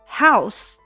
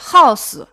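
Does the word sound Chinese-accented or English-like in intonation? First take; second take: English; Chinese. First: It is said with a natural English intonation. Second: It is said with a Chinese-like intonation. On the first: The speaker calls it right. "是house。" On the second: The speaker calls it wrong. "注意这个house 不是house"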